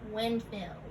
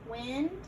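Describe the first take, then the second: First: Said in the usual way. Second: "Windmill" as wind, pause, mill; split compound. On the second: Shown as a demonstration. Teacher repeating the parts for learners, "Windmill" split in two. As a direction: leave a clear gap inside "Windmill".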